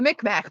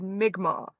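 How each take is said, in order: First: The name is said as anglicized Micmac. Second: The name is said in its native form. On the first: The speaker calls it wrong. "We pronounced it Micmac" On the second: The speaker calls it right. "could not pronounce the word"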